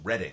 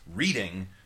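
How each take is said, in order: First: The first vowel is a short 'e' sound. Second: The first vowel is a long 'ee' sound. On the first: It names a city in Pennsylvania. "if it's capitalized, it's reading, like the city in Pennsylvania" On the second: It names a poet's performance. "poet's performance"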